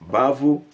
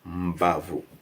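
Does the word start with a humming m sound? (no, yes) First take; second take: no; yes. First: The word starts directly with a b sound. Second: The word starts with an m before the b. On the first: "if M was not there, it would have been called Bavu" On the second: "because of the M, they say Mbavu"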